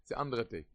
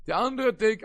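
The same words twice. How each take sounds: First: Said in the usual way. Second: אנדערער said high and loud; stress on אנדערער. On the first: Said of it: "repeated with force". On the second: Shown as a demonstration. Rabbi to his students, stressing אנדערער. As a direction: punch אנדערער to make the point. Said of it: "said plainly before".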